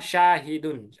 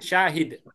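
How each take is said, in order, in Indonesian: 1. Kata ini berakhir dengan tambahan bunyi 'un'. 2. Kata ini berhenti pada konsonan terakhir. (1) "Atau eh salah" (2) "Terakhirnya pakai sukun"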